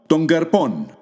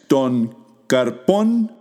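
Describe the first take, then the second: First: Words run together, n and k become ng. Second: Two separate words with a plain n and k.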